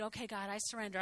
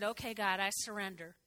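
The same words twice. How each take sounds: First: Softer surrender. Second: Quiet surrender. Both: Retold or imitated. Praying surrender to God.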